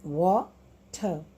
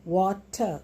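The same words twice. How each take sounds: First: "water" broken into wa, pause, ter; "water" as two separate beats, wa... ter; split into syllables. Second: "water" said as two clear syllables; "water", lightly marked into wa-ter. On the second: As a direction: say "water" evenly, in two beats. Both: Shown as a demonstration. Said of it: "now you see two syllables".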